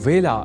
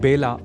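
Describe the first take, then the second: First: The word begins with a 'v' sound. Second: The word begins with a 'b' sound. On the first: The speaker calls it right. "विशेष ध्यान रखा जाना चाहिए" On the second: The speaker calls it wrong. "इसे बेला नहीं बोला जाना चाहिए"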